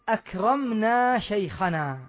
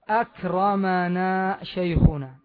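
First: The m of akram has no vowel after it. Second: The m of akram carries a short a vowel. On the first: We did the honoring ourselves. "ذاك لو قلت" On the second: Someone else did the honoring to us. "انظر كيف نطقته، أكرم، فتحت أو لا؟"

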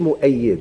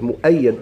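First: The vowel before the final d is i. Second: The vowel before the final d is a. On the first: He is the one who supports. The speaker calls it wrong. "ماشي مؤيد" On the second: He is the one who is supported. The speaker calls it right. "مؤيد الله أيده"

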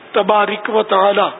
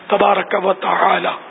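First: The vowel before the final k is not 'a'. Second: The vowel before the final k is 'a'. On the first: The speaker calls it wrong. "بھائی یہ بھی غلط ہے" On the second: The speaker calls it right. "تبارک کاف پر زبر ہے"

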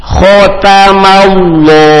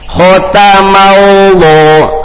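Both takes have the same delivery.

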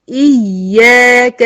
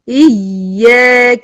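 First: The doubled y is pressed hard with emphasis. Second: The doubled y is pressed hard with emphasis.

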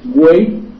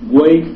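First: It is said with a frightened tone. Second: It is said with a puzzled tone. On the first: The speaker is scared. "qué espanto" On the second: The speaker finds something strange. "qué extrañeza"

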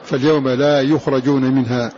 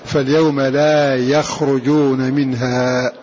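First: The verb is read as yukhrajun, with 'u' first. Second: The verb is read as yakhrujun, with 'a' first. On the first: They are not brought out. "بالبناء المفعول" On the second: They themselves do not come out. "بالبناء للفاعل"

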